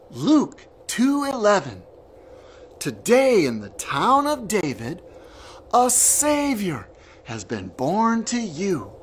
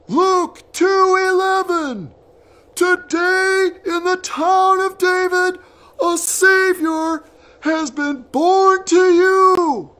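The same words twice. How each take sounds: First: It is said in a normal voice. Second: It is said in a very loud voice.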